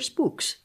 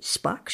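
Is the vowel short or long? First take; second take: long; short. First: The vowel is long, as in 'moon'. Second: The vowel is short, as in 'cup'. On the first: "But if I said Spooks, then you'd think I was talking about the NSA again" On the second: "You could do it Spux or Spooks"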